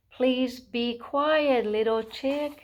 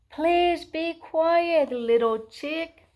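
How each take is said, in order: First: Insistent mommy. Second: Slow, high, loud scolding; mommy shouting back. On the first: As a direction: stretch it out as an insistent mother. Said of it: "his mommy tried again". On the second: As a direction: shout it slowly as a fed-up mother. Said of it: "his mommy shouted back". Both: A narrator's reading.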